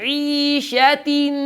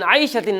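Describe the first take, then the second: First: The first vowel is a pure 'ee'. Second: The first vowel glides from 'ah' to 'ee'. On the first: The speaker calls it right. "ई ई ई आवाज को हाँ झुकाना है" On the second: The speaker calls it wrong. "आइशतिन आइशतिन ना, जबर की आवाज पैदा ना हो"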